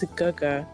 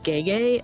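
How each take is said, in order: First: The vowels are pronounced as an 'uh' sound. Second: The vowels are not pronounced as an 'uh' sound. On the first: The speaker calls it right. "for Big Brother it's Guga" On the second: The speaker calls it wrong. "when people don't know how to read it, they see it and they're like Gege"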